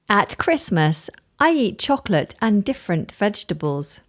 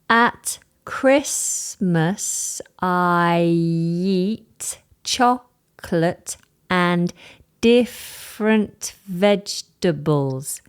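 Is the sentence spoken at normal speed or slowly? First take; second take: normal; slowly. First: It is spoken at a natural speed. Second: It is spoken slowly. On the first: "Listen to this" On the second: "Listen again slowly"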